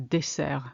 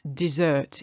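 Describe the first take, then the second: First: Dessert said the French way, "deh-SAIR"; French dessert, hard S in the middle. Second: Dessert said the English way, "dih-ZURT"; English dessert, buzzed middle and sounded T. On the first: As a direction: say dessert with a hissed S and silent T. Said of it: "it's got a double S". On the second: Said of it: "It's dessert in English". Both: Shown as a demonstration.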